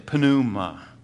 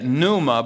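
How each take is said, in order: First: The initial P is lightly sounded. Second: The initial P is silent. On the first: "in Greek you pronounce the P just a little bit" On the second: "we would say it pneuma"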